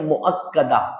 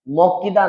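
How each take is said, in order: First: The vowel after the k sound is a. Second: The vowel after the k sound is i. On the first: The speaker calls it right. "मुअक्कदा, काफ के ऊपर जबर" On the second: The speaker calls it wrong. "मौक्किदा मौक्किदा नहीं है"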